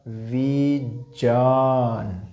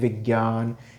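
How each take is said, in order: First: The middle cluster is said with a 'j' sound. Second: The middle cluster is said with a 'g' sound. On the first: The speaker calls it right. "ज और य ये दोनों मिलेंगे तो क्या हो जाएगा दोस्तों, जै" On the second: The speaker calls it wrong. "सामान्य तौर पर सभी लोग इसको गे बोलते हैं"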